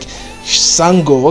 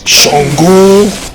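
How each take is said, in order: First: The name begins with a plain 's' sound. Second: The name begins with an 'sh' sound. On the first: This is how the anime characters said it. The speaker calls it wrong. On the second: This is the name of the West African god. The speaker calls it right.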